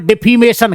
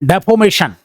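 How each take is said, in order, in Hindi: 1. दूसरा स्वर 'ee' जैसा सुनाई देता है। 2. दूसरा स्वर 'oh' जैसा सुनाई देता है। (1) "अब हम तो इसको डिफीमेशन कहते।" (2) "ई की जगह पे ओ का उच्चारण हो रहा है।"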